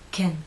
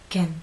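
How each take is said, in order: First: The vowel is short, lips slightly relaxed. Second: The same.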